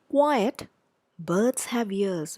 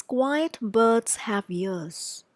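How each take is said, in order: First: Pause after quiet. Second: Slow, one phrase. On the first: Teacher reading the version with the comma. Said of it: "Look at the next one". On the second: Teacher reading the unpunctuated sentence. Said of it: "look at the next sentence". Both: Shown as a demonstration.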